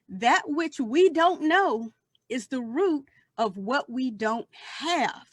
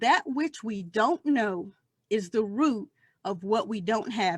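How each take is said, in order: First: It is said slowly. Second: It is said at a normal speed.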